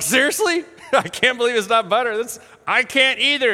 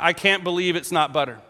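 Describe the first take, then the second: First: Higher, quick incredulous reaction; retold laughing astonishment; amused disbelief. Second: Said in the usual way. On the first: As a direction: react as if you can't believe it, amused. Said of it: "To which I died laughing. I was like". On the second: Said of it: "And it said".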